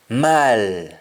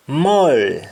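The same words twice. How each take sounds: First: MALL as long open "maal"; Jamaican pronunciation. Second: MALL with rounded "moll" vowel; English-style round vowel in MALL; English pronunciation. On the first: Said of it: "we say al". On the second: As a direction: say MALL as "mawl". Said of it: "instead of saying all". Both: Shown as a demonstration.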